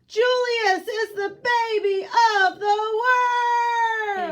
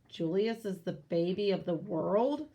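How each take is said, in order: First: It is said loudly and firmly. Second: It is said quietly and hesitantly.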